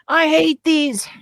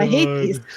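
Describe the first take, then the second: First: It is said imitating Anakin's voice. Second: It is said in the speaker's normal voice.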